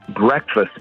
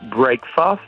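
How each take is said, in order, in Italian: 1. La prima sillaba non suona come break. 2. La prima sillaba suona come la parola break. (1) "è diventato breakfast" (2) "invece di essere breakfast"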